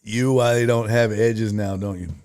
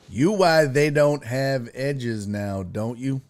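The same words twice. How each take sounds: First: Said in the usual way. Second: Slow, spaced-out words; puzzled careful reading. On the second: Real, not acted. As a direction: read it out slowly, word by word. Rereads garbled comment word by word.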